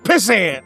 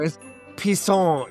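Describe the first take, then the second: First: The word is said with an English pronunciation. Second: The word is said with a French pronunciation. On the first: The name is being said incorrectly. The speaker calls it wrong. "it's not" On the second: The name is being corrected. The speaker calls it right. "you know, it's French"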